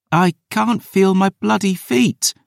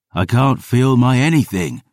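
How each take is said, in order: First: Wailing. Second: Said in the usual way. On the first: A narrator's reading. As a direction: moan it out high and miserable. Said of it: "Dior wailed".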